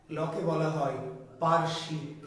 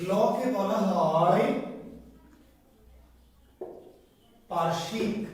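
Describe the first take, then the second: First: Said in the usual way. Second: "লকে বলা হয়" drawn out, long pause, then "পার্শ্বিক"; slow dictation. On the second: Shown as a demonstration. Dictation for students to write down.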